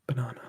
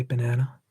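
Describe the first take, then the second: First: Said in the usual way. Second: "banana" said the American way, middle vowel as in "cat"; American-accented "banana"; American pronunciation. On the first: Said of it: "other silly ways to say". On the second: Shown as a demonstration. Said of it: "That's very American".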